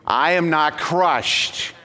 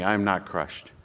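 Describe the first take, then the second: First: It is said forcefully, with strong conviction. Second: It is said flatly, without much force. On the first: The speaker calls it right. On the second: The speaker calls it wrong.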